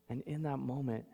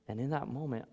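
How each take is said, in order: Both takes have the same delivery.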